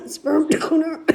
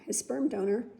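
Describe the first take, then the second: First: Forced out mid coughing fit, much louder; words pushed through a cough. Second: Said in the usual way. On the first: Real, not acted. Naming Beckett's father while coughing: choked-out words. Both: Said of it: "That hit me wrong".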